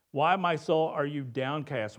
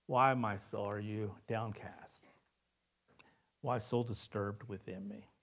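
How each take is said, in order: First: Louder, lifted question that rouses the soul; bold challenge. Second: Soft lament. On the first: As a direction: call out to your own soul to wake it up. Psalm reread as bold self-address. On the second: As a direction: let it sink low and quiet, like a sigh to yourself. Psalmist's lament read softly. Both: Acted.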